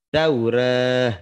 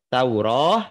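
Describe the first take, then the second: First: The final vowel is tilted toward e. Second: The final vowel is a full open a. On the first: "ada juga dibaca Taurah taklil" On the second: "Bisa dibaca Tauroh sempurna yang biasa"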